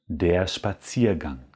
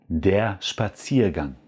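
Both takes have the same delivery.

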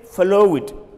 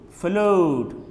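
First: The word ends with an extra 'id' syllable. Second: The word ends with a plain 'd' sound. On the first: The speaker calls it wrong. "Don't say flow it" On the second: The speaker calls it right. "Say flowed, You add only D"

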